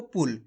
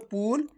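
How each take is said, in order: First: पुल said with a short उ; short vowel. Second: पुल with the उ stretched long; drawn-out vowel. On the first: Teacher telling pupils to read it short. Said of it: "खींच के नहीं पढ़ना". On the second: Teacher showing the wrong, stretched reading. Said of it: "अगर आप खींच के पढ़ोगे". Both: Shown as a demonstration.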